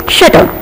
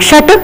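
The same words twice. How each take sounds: First: "shutter" with one light T; don't double the T in "shutter"; correct single T. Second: "shutter" with a stressed double T; wrong doubled T. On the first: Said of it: "It is shutter". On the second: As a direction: hold the TT in "shutter". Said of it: "It's not shutter". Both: Shown as a demonstration.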